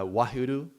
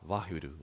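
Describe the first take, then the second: First: The word begins with a w sound. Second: The word begins with a v sound. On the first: "we write Wahuru, for example, with W" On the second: "from the Indian classical perspective, if you pronounce it, it will be Vah"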